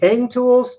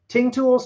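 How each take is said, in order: First: The brand name has a short 'a' vowel. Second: The brand name has an 'i' vowel. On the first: "like a short A vowel sound" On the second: "pronounced it like it was an I"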